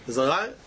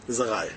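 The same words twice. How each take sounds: First: RAYA rising at the end like a question. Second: RAYA falling low as a settled statement. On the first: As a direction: lift "raya" upward, as if querying it. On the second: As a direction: say "raya" low, with the tune dropping. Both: Shown as a demonstration. Repeats phrase as statement, then question.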